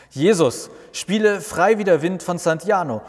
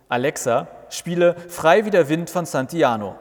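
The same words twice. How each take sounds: First: Loud, high call across the garden; calling toward the grill. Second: Calling to Alexa. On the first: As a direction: shout it over to the grill. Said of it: "ruft Martin Richtung Grill". (laut und hoch Richtung Grill gerufen) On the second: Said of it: "Martin ruft". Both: Acted.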